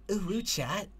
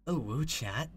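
First: Higher, cutesy character voice; twinkling voice. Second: Twinkling voice attempt. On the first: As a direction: greet chat in a high twinkling voice. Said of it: "That, I got it right". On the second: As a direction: lower take on a cutesy character voice. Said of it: "Is that?". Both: Shown as a demonstration.

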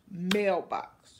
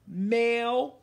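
First: Said in the usual way. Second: Mailbox drawn out with a rising tune, syllables held apart; segmenting demo. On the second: Shown as a demonstration. Teacher modeling a word for kids, drawn out and rising. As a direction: say "Mailbox" slowly in two parts, pitch rising. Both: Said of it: "Your turn".

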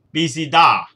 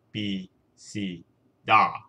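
First: Said in the usual way. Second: Visitar stretched very slowly, stress on -tar; slow teaching repeat. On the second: Shown as a demonstration. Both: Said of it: "呢個係一個動詞".

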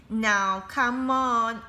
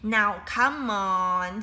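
First: Louder, trying hard to sound stern; a headmaster straining for authority; a hint of a stern headmaster; authoritative headmaster. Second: Slow, louder, drawn-out command; a weak headmaster forcing authority; slow, strained stern headmaster; authoritative headmaster. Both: A narrator's reading. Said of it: "trying his hardest to sound authoritative".

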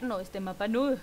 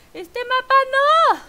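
First: Said in the usual way. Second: Louder and higher, slow, firm no; loud refusal. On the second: Real, not acted. Streamer refuses the map to chat, loud and slow. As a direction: insist loudly that she doesn't want this map.

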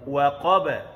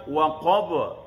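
First: Waqaba with heavy qa, light open ba; thin ba. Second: Waqaba ending in a heavy, rounded bo; thick ba. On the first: Teacher models it correctly, waqaba with thin ba. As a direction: keep the final ba of waqaba thin. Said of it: "ba itu tipis". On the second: Teacher shows the mistake, waqaba with thick ba. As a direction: let the ba in waqaba thicken like the qaf. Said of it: "Jangan huruf ba tu terikutkan qaf". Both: Shown as a demonstration.

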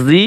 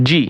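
First: "জি" said as a buzzing "zee"; za sound. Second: "জি" said as "jee"; jeem sound. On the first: Teacher contrasts similar letters, "জি" as zee. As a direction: use a z at the start of "জি". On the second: Teacher contrasts similar letters, "জি" as jee. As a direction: use a hard English j for "জি". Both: Shown as a demonstration. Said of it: "একটা উচ্চারণ ও প্রায় অন্যটার সাথে মিলে যায়".

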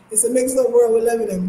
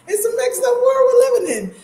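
First: Said in the usual way. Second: "It's a mixed up world we're living in" sung high; sung line. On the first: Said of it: "sung first". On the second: Pretend. Summing up to viewers, singing "It's a mixed up world we're living in" high. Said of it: "repeat in plain voice".

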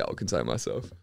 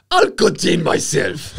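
First: Said in the usual way. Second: High, drawn-out mock Zimbabwean accent. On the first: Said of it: "You're, you're not gonna do the voice". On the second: Co-host breaking his promise to drop the voice, mock Zimbabwean accent. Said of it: "you're not gonna do the voice".

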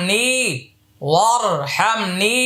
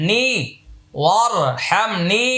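Both takes have the same delivery.

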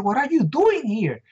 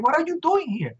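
First: High, alarmed question; shocked to find her still there, pitched way up; startled question. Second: Much higher, pressing question; urgent repeated question. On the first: Rescuer finding the guard still at her post, alarmed high question. Running past the security guard. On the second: Rescuer urging the guard to leave, higher and more urgent. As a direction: push her harder, pitch climbing. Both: Retold or imitated.

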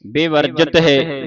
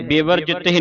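First: ਬੇਵਰਜਿਤ ਹੈ as 'be, varjit-heh'; separated first syllable. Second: ਬੇਵਰਜਿਤ ਹੀ run together as 'bevarjit'; quick, unbroken ਬੇਵਰਜਿਤ ਹੀ; wrongly joined. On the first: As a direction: detach 'be' from 'varjit' in ਬੇਵਰਜਿਤ ਹੈ. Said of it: "ਬੱਬਾ ਇਹ ਸੰਬੰਧਕ ਲਾ ਕੇ ਉਚਾਰਨ". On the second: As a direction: rush 'be' into 'varjit' in ਬੇਵਰਜਿਤ ਹੀ. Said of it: "ਨਹੀਂ ਪੜ੍ਹਨਾ". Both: Shown as a demonstration.

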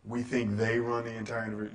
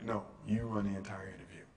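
First: "they" punched as the key word; stress on THEY. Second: "you" punched as the key word; stress on YOU. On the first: Coach shows the wrong belief, stress on "they". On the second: Coach corrects the class, stress on "you". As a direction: hit "you" to correct them. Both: Shown as a demonstration.

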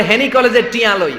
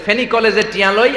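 First: Chanted, higher slogan with H in "হেনি"; chanted, mimic marchers saying "হেনি" for Feni; raised chant, "হেনি" with H replacing F; Feni dialect chant. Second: "Feni" begins with F; F restored in "Feni". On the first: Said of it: "একদল বলে". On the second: Shown as a demonstration. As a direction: explain the slogan, saying "Feni" with F. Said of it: "Feni একটা college আছে".

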